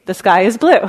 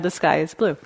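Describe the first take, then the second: First: The sky is blue tossed out loud and bright; The sky is blue said louder, with a laugh right after; playful punchline. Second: Said in the usual way. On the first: Retold or imitated. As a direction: land The sky is blue as a cheerful joke. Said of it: "she would add the phrase". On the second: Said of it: "Or she'd just add".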